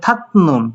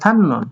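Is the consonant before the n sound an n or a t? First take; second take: t; n. First: A t sound comes before the n. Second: A double n sound is heard. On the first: "সবগুলো মাত থাতনুন" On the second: "কিন্তু উচ্চারণ হবে থান্নুন"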